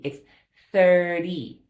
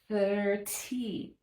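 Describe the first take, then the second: First: The middle consonant sounds like a D. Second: The middle consonant is a clear T sound. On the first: The speaker calls it right. "like a D" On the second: The speaker calls it wrong. "we don't have to say that with a T"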